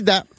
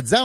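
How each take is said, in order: First: Da with a clean D, no z; plain D. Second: Da said as dza; wrongly added z. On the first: Correcting newcomers, da with plain D. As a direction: say da with a bare D. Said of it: "on dit da". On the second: Showing the overcorrected way, da as dza. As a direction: put a z between D and A, dza. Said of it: "on dit pas de za". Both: Shown as a demonstration.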